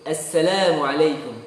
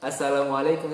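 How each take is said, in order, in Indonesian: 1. Vokalnya berat dan tebal. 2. Vokalnya ringan dan tipis. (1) "tapi ... Itu tebal semua"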